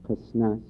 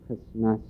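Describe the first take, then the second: No difference in how they are said.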